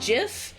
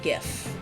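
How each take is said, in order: First: It starts with a soft j sound. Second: It starts with a hard g sound. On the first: The speaker calls it right. "My main reason for saying GIF is, like, because it feels more natural" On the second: The speaker calls it wrong. "GIF feels like it needs the T at the end"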